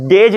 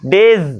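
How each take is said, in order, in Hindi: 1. शब्द का अंत 'j' ध्वनि से होता है। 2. शब्द का अंत गुंजन वाली 'z' ध्वनि से होता है। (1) "डेज नहीं होता" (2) "वो ये साउंड निकलना चाहिए लास्ट में"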